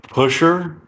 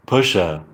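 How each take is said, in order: First: Said in the usual way. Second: "pusher" as push-ah, R dropped; British ending. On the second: Shown as a demonstration. Applying er-to-ah rule, British "pusher" like push-ah. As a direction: end "pusher" on a falling ah. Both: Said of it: "er in American is ah in English".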